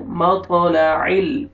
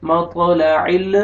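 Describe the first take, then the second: First: مطلع ال with the lam of ال held steady, not wobbled; correct lam. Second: مطلع ال with the lam of ال shaken, a faulty take; wrong lam. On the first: Teacher modelling the right lam for students, مطلع ال held steady. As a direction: say مطلع ال slowly, the لام firm and still. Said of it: "لام کو آپ نے ہلانا نہیں ہے". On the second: Teacher showing students the mistake, مطلع ال with a wobbling lam. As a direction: wobble the لام in مطلع ال on purpose. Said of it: "ایسے نہیں پڑھنا". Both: Shown as a demonstration.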